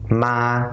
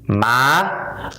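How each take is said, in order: First: The pitch stays level and flat. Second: The pitch rises toward the end. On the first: It means ghost. "keep their voice flat" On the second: It means mother. "raise your voice a little bit higher"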